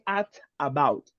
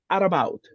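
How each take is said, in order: First: The two words are separated by a stop. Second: The two words are linked without a stop. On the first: The speaker calls it wrong. "You don't say at about" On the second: The speaker calls it right. "Don't stop"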